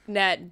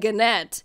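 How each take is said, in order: First: The word begins with an N sound. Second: The word begins with a hard G sound. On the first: The speaker calls it right. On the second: The speaker calls it wrong.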